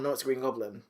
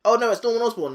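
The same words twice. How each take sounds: First: Lower, softer Goblin side of a back-and-forth; alternating persona. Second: Higher, alarmed Norman side of a back-and-forth; mock panic, pitched up; alternating persona. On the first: Retold or imitated. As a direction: drop down for the reply. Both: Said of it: "back and forth".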